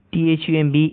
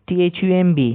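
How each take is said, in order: Both takes have the same delivery.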